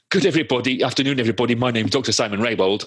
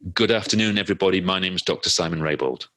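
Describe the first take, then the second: First: It is said in a stumbling, nervous way. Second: It is said smoothly and calmly. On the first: The speaker started without settling in first. The speaker calls it wrong. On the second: The speaker has settled in before starting. The speaker calls it right.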